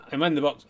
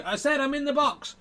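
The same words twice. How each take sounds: First: Said in the usual way. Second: Very high dummy voice; ventriloquist's dummy. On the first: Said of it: "I turn around and go". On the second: Acted. Dummy repeats to the children from the box, very high voice. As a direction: insist in a much higher dummy pitch. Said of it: "turn around and go".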